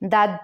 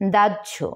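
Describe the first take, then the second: First: The middle consonant is an h sound. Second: The middle consonant is a jh sound. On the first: The speaker calls it wrong. "অনেকে এটাকে দাহ্য উচ্চারণ করে থাকে" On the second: The speaker calls it right. "আসলে এর সঠিক উচ্চারণ হচ্ছে দাহ্য"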